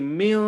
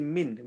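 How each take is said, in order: First: The n is hidden with a nasal sound. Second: The n is pronounced fully and clearly. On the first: The speaker calls it right. "we take the sound to our nose" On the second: The speaker calls it wrong. "Don't say min"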